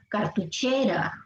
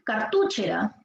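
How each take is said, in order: First: The stress is on the third syllable, che. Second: The stress is on the second syllable, tu. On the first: The speaker calls it right. "la pronunciación correcta, que es esta" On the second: The speaker calls it wrong. "Si fuera en tu"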